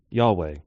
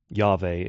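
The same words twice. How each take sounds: First: The name is pronounced the English way. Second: The name is pronounced the German way.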